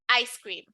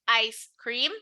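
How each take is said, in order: First: The two words run together as one. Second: The two words are said separately. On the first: The speaker calls it right. "It sounds like ice cream, like it's only one word" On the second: The speaker calls it wrong. "It doesn't sound like ice cream"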